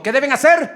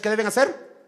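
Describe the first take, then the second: First: Much louder, higher question to the congregation; emphatic repeat. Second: Said in the usual way. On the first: Shown as a demonstration. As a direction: call the question out, demanding an answer. Repito": preacher presses congregation. (pregunta repetida con fuerza, en voz alta)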